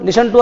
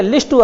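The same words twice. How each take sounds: First: "Listen" said as lis-en, no t sound; correct form. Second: "list to" with a hard t; wrong form. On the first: Teacher repeating the correct form to the class, no t sound. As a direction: say "Listen to" properly. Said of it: "ये तो बहुत अच्छी बात है". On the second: Teacher mimicking the students' wrong form with a hard t. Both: Shown as a demonstration.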